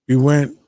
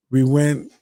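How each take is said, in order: Both takes have the same delivery.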